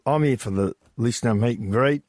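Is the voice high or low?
low. It is said in his own deep voice.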